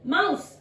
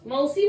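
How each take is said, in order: First: The word ends on the 's' with no vowel. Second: The word ends with an added 'ee' vowel. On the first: The speaker calls it right. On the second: The speaker calls it wrong.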